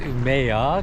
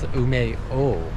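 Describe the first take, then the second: First: The final vowel sounds like "ah". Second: The final vowel sounds like "oh". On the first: The speaker calls it wrong. "We thought it was pronounced Umea" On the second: The speaker calls it right. "But it's Umeo. It's pronounced O"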